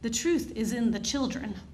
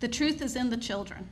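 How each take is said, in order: First: It is spoken with an imitated French accent. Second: It is spoken in the speaker's ordinary accent.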